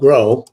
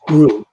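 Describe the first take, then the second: First: The vowel sounds like the one in 'go'. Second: The vowel sounds like the one in 'too'. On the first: The speaker calls it wrong. "it's not Grow" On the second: The speaker calls it right. "it's Gru"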